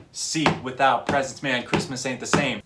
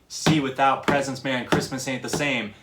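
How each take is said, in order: First: "See" kicked short, then a tiny gap; syncopated kick on the opening "See"; little kick on See. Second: Said in the usual way. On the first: Shown as a demonstration. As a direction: rap it groovy with a kick on "See". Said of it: "doing that little kick". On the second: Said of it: "instead of just going".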